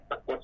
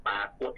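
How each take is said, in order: First: ปรากฏ with a quick "a" before "kot"; short first vowel. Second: ปรากฏ with "aa" held before "kot"; long first vowel. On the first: Teacher lists both spellings, short vowel in ปรากฏ. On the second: Teacher lists both spellings, long vowel in ปรากฏ. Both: Shown as a demonstration. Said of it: "มีทั้งปรากฏและปรากฏ".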